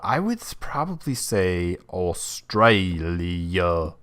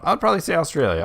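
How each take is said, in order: First: It is said in an imitated Australian accent. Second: It is said in the speaker's ordinary accent.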